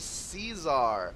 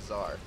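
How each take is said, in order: First: The word is said with two syllables. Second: The word is said with one syllable. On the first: The speaker calls it wrong. "I mispronounced it again" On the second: The speaker calls it right. "I will pronounce it correctly"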